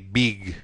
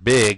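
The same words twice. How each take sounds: First: The vowel is long and tense. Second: The vowel is short and lax. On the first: "They would say big" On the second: "don't use the sound big"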